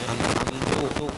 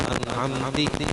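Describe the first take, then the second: First: The word ends with a u vowel. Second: The word ends with an i vowel. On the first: "kadhammi ta'i" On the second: "au kasri"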